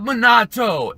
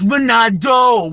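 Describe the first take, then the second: First: The middle consonant is a T sound. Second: The middle consonant is a D sound. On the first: The speaker calls it wrong. "it's not Minato" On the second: The speaker calls it right. "Monado with a D"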